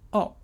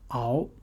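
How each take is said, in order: First: The tone falls sharply from high. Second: The tone rises from middle to high.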